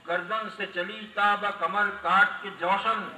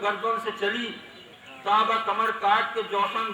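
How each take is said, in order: First: The line is read straight through without pauses. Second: The line is read with deliberate pauses within it. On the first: "इसी तरह पढ़ दिया" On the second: "ये इसमें possess हैं, वक्फे हैं"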